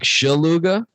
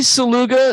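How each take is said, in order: First: The name begins with an SH sound. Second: The name begins with a plain S sound. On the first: It is the original Polish pronunciation. "It's supposed to be more like Shaluga" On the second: It is how the speaker's family says it. "I say Saluga"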